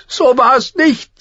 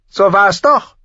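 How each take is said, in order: First: Put-on high, slow, a touch tearful girl; close to tears. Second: High, loud stubborn prince, rising "doch"; insisting. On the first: Arya denies the accusation, high and slow, near tears. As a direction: hold back the tears on "nicht". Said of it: "sagte Arya und war wieder den Tränen nahe". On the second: Acted. Joffrey contradicts Arya, high and stubbornly insisting. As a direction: dig in on "doch" with a rising tune. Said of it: "beharrte Prinz Joffrey".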